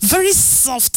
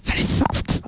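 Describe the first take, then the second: First: Said in the usual way. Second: Breathy swooning whisper. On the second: Real, not acted.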